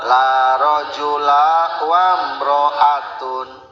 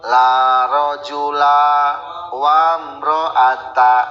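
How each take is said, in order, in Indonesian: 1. Kata terakhir berakhir dengan bunyi -un. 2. Kata terakhir berakhir dengan bunyi -a. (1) "Menang rofa" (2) "Tah eta mah teu meunang"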